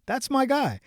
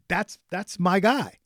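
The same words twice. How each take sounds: First: Pitched up, thrilled; a higher, excited repeat. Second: Drawn-out, fond recognition; slow and fond. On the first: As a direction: burst out in joy. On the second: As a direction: savour the words slowly, like greeting an old friend. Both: Retold or imitated. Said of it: "And I'm like".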